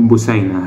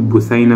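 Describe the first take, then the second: First: The middle consonant is an 's' sound. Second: The middle consonant is a 'th' sound. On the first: This is how Egyptians usually say it. "بنقول" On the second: This is the standard Arabic pronunciation. "بدل ما نقول"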